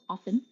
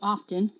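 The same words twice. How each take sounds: First: The T sound is silent in the word. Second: The T sound is pronounced in the word. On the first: The speaker calls it right. "The T is silent" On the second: The speaker calls it wrong. "Stop saying often"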